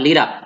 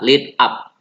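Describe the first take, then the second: First: The two words run together quickly. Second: The two words are said separately. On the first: "Kalau kalau membacanya cepat kamu bisa mengucapkan lead up gitu ya" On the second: "ucapkanlah uh, kata per kata"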